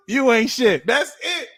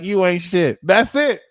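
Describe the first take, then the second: First: Much higher, laughing through "You ain't shit"; laughing retort. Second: Higher, louder "You ain't shit"; sassy retort. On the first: Vlogger repeating his comeback, laughing. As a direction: cackle it at them. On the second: Vlogger showing viewers how to answer insults, sassy. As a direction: cut them down flat. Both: Shown as a demonstration. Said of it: "be like".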